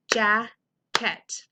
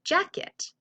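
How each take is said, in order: First: Jacket split into two beats, JACK, KET; two separate beats on jacket; syllable by syllable. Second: Said in the usual way. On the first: Shown as a demonstration. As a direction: say jacket slowly with a gap between jack and ket. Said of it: "has two syllables". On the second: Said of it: "if I were to say".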